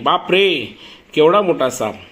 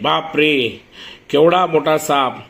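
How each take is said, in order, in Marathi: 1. हे घाबरलेल्या उद्गाराने म्हटले आहे. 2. हे भावना न दाखवता सपाट आवाजात म्हटले आहे. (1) "तो घाबरलेला आहे" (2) "आपण असं म्हणतो का?"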